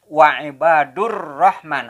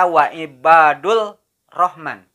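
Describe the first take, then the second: First: The L merges into a doubled R sound. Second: A clear L sound is heard before rahman. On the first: The speaker calls it right. "Tapi membacanya wa'ibadur rahman. Alif lamnya dibaca tidak jelas" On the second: The speaker calls it wrong. "tidak membaca wa'ibadul rahman"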